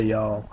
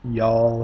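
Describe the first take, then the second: First: "y'all." said plainly as one syllable; casual Southern "y'all.". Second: "Y'all" said loud and drawn out; Southern "Y'all" with a broad vowel. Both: Shown as a demonstration. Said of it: "I do say".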